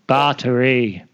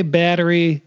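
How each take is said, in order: First: Battery in a South African accent, /pɑtə˞i/; Battery with an open, broad first vowel. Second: Said in the usual way. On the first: Shown as a demonstration. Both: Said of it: "you say battery with a South African accent".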